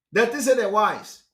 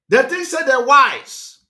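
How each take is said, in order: First: Said in the usual way. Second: Loud, high, drawn-out jeer. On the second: Real, not acted. Speaker mocking Benin people to his viewers, loud jeer. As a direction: jeer it out loudly, stretching the words.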